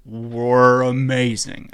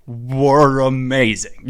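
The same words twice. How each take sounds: First: Drawn out. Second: Slow drawn-out emphasis. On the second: Repeating the phrase for a friend who asked, slow and savoring. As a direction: stretch "Were amazing" slowly, louder. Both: Shown as a demonstration. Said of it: "How'd that go?".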